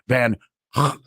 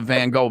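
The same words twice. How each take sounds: First: The name is said with rasping throat sounds. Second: The name is said with plain English sounds. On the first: The speaker calls it right. "it's got to come from the back of your throat" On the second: The speaker calls it wrong. "I don't know how we changed it into"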